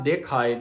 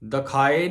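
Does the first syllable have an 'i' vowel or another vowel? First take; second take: i vowel; other vowel. First: The first syllable has an 'i' vowel. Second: The first syllable has a vowel other than 'i'. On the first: The speaker calls it right. "ਦੱਦੇ ਨੂੰ ਸਿਹਾਰੀ ਲੱਗੀ ਹੋਣ ਕਰਕੇ" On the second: The speaker calls it wrong. "ਦਿਖਾਏ ਨਹੀਂ ਕਹਿਣਾ"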